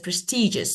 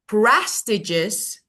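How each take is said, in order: First: The stress is on the second syllable. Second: The stress is on the first syllable. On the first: The speaker calls it right. "the correct one that is" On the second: The speaker calls it wrong. "the first one"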